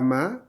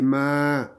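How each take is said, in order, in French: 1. La voyelle est courte et sèche. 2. La voyelle est tenue sur deux temps. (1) "C'est pas ma" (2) "deux, à cause du alif"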